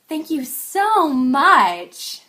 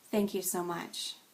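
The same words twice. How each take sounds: First: It is said in an exaggerated, overdone way. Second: It is said in a flat, understated way. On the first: The thanks is overplayed. "But exaggerated would sound like" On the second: The thanks is held back. "And then understated"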